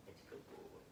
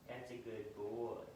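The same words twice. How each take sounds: First: Soft whisper of praise to the dog. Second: Slow tender praise to a puppy; slow soothing praise. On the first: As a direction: breathe the praise so he stays calm. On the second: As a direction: draw it out gently to calm him. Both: Real, not acted. Praising dog who came close.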